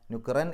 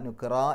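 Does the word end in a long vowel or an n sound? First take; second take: n sound; long vowel. First: The word ends with an n sound. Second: The word ends with a long vowel. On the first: The speaker calls it wrong. "നുഖ്റൻ എന്നല്ല" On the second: The speaker calls it right. "നുഖ്റ എന്ന് പറഞ്ഞിട്ടാണ് പാരായണം നിർത്തുക"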